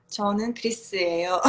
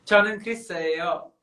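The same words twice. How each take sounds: First: 저는 크리스예요 said quickly; teacher giving the simplest form; short polite model. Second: 저는 크리스예요 echoed by a beginner; student copying the phrase; learner repeats. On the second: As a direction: repeat 저는 크리스예요 after the teacher. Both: Shown as a demonstration. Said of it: "or you can say".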